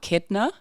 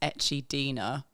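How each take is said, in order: First: The word is said with three syllables. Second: The word is said with four syllables. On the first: The speaker calls it right. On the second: The speaker calls it wrong.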